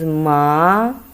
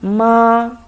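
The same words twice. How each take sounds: First: It is said with the second tone. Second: It is said with the first tone. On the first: It means hemp. "the second time is ma" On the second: It means mom. "for the first time"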